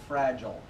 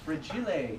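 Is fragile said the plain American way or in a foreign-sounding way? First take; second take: American; foreign-sounding. First: The word is given its ordinary American pronunciation. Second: The word is given a foreign-sounding pronunciation. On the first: "Here in America, we say fragile" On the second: "it's it's foreign. It says so right in the box"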